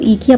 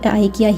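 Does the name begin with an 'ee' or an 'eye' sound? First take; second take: ee; eye. First: The name begins with an 'ee' sound. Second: The name begins with an 'eye' sound. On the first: This is how it is said in Germany. "Germany में आइकिया को जो है वो ईकिया pronounce किया जाता है" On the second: This is how it is said everywhere else. "This is how it is pronounced everywhere else"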